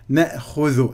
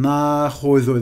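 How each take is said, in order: First: The first vowel is a fronted 'e' sound. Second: The first vowel is an open 'a' sound. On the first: The speaker calls it right. "diye okuyacağız" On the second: The speaker calls it wrong. "diye okumayacağız"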